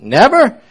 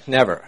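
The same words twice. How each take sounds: First: High, loud shocked question; can't believe it; incredulous. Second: Said in the usual way. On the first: Retold or imitated. Preacher echoes pastor in disbelief, high loud question. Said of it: "I said". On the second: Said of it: "He said".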